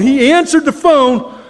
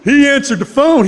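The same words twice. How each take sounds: First: Slower, leaning on "answered"; slow emphatic repeat. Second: Said in the usual way. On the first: Shown as a demonstration. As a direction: let "answered" land, slowly.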